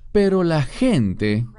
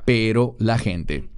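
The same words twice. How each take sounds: First: "Pero la gente" raised higher and slow, rising at the end; stressed higher. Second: Said in the usual way. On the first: Shown as a demonstration. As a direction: lift "Pero" up and draw the phrase out slowly, ending on a rise. ("Pero la gente" más agudo, lento y con tono que sube)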